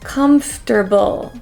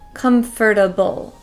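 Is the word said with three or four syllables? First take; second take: three; four. First: The word is said with three syllables. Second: The word is said with four syllables. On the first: "comfter, comfter" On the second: "put an extra syllable and say comfortable"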